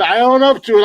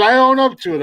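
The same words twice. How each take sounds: First: Emphatic admission. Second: "own" punched high; insistent stress on own. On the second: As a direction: lean on the word "own". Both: Real, not acted. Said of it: "I can't do voices and impressions".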